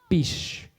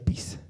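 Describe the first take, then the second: First: The word ends with an sh sound. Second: The word ends with an s sound. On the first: This is the form used in Marca and nearby areas. "en Marca y zonas aledañas de las vertientes se pronuncia pish" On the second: This is the form used in most of Ancash. "en gran parte de Ancash se dice pis"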